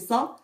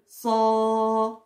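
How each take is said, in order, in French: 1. La voyelle est courte. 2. La voyelle est prolongée. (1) "le fatha on fait ça" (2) "mais plus prolongé"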